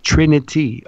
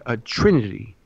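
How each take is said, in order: First: "Trinity" set apart, higher and clearly enunciated; clear emphatic repeat. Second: Said in the usual way. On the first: Real, not acted. Speaker repeats a term said too fast, clear emphatic "Trinity". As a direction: pitch up "Trinity" and articulate every syllable. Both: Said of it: "Sorry if I said that too fast".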